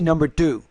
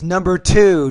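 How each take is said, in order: First: The vowel in 'two' is cut short. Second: The vowel in 'two' is held long. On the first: The speaker calls it wrong. "Don't say" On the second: The speaker calls it right. "Long vowel sound"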